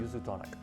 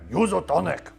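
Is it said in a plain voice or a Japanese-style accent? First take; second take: plain; Japanese-style. First: It is said in a plain, ordinary voice. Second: It is said forcefully in a Japanese-style accent.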